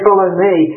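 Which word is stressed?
me. The stress falls on the word me. The person being followed is what matters.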